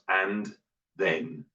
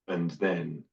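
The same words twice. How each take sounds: First: Both words are said fully and carefully. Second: The words are partly reduced and run together. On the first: "here's the greenhouse" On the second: "move to the garden"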